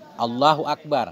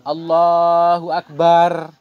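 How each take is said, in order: First: The vowel in 'bar' is short. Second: The vowel in 'bar' is drawn out long.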